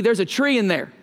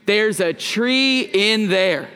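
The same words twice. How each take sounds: First: Quicker Okie twang. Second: Slow, even "There's a tree in there" for the crowd to echo; slow and deliberate. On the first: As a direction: toss off "There's a tree in there" quickly with an Okie accent. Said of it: "you could say a little bit quicker, a little more oaky". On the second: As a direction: draw out each word of "There's a tree in there". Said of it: "can you say it with me? One, two, three". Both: Shown as a demonstration.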